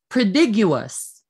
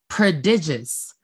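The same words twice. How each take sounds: First: The syllable after 'd' has a 'you' sound. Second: The syllable after 'd' has an 'ih' sound. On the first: The speaker calls it wrong. "Option A" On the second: The speaker calls it right. "it's letter B. ... I po yun, hindi you"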